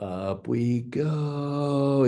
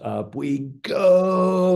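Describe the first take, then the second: First: The call is said softly and gently. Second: The call is said sharply and forcefully. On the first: Everyone pulls less on the controls. "it's a less of a pull" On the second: Everyone pulls hard on the controls. "it's really hard, you know, it's a hard pull"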